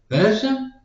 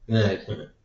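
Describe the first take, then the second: First: That's him? with a high rising question tune. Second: That's him. with a flat falling statement tune. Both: Retold or imitated. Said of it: "Like, um".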